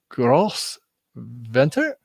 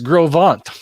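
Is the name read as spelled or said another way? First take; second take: as spelled; another way. First: The name is read straight from its spelling. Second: The name is said differently from its spelling. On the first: The speaker calls it wrong. "And it's like, well" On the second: The speaker calls it right. "And no, it's"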